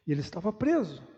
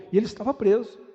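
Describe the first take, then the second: First: Said in the usual way. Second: Loud, raised declaration; emphatic. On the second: Real, not acted. Preacher on Paul in chains, emphatic and loud. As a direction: drive the irony home loudly.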